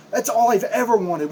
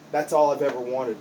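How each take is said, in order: First: Loud and higher, all stressed; anguished shout. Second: Said in the usual way. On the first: Acted. Wrestler yelling his one wish at his trainer, loud. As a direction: yell it at him full voice.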